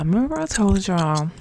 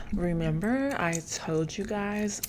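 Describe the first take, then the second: First: Very loud, pushed delivery. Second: Said in the usual way. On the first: Shown as a demonstration. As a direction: belt it out like calling across a room. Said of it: "stop talking like that". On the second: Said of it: "Calm down".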